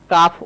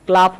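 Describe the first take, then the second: First: কাফ as "kaaf", silent L; correct pronunciation. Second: ক্লাফ with the L sounded, "klaaf"; wrong pronunciation. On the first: Teacher corrects a common mistake, correct pronunciation. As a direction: say কাফ slowly with long AH, no L. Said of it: "উচ্চারণ হবে". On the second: Teacher warns against a common mistake, wrong pronunciation. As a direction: mispronounce ক্লাফ, L right after K. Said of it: "উচ্চারণ হবে না". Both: Shown as a demonstration.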